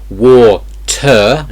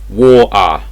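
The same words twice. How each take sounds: First: The middle T sound is clearly pronounced. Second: The middle T sound is dropped entirely. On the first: The speaker calls it wrong. "So it's not water" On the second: The speaker calls it right. "it's water ... There's basically no T sound here at all"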